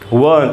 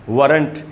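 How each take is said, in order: First: A long vowel is held without an r sound. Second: A short vowel is followed by an r sound. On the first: The speaker calls it right. "वहां ज्यादा देर तक रुकना है" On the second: The speaker calls it wrong. "वरंट नहीं होगा"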